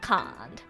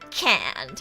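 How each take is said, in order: First: It is said with an Australian accent. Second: It is said with an American accent. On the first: The speaker calls it wrong. "instead of can't" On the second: The speaker calls it right. "say like ... can't"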